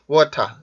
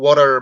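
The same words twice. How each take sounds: First: The r sound at the end is dropped. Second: The r sound at the end is pronounced. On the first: "이렇게 발음을 하는 게 모음 뒤에 오는 R 발음을 하지 않기 때문에" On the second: "water 발음도"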